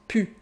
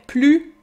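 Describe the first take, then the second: First: The L sound is dropped from the word. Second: The L sound is pronounced in the word.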